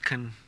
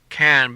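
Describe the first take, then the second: First: The word is said in a weak reduced form. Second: The word is said in full.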